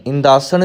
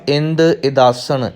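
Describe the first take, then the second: First: ਇੰਦਾਸਣ as one merged "indaasan"; run-together word. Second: ਇੰਦ ਇਦਾਸਣ split, no nasal in ਇਦਾਸਣ; two separate words. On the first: Teacher showing learners the mistake, ਇੰਦਾਸਣ merged into one. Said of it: "ਇੰਦਾਸਣ ਵੀ ਨਹੀਂ ਕਹਿਣਾ". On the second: Teacher giving learners the reading, ਇੰਦ ਇਦਾਸਣ spoken separately. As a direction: say "ind", then "idaasan" for ਇੰਦ ਇਦਾਸਣ. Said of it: "ਇੱਥੇ ਪਾਠ". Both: Shown as a demonstration.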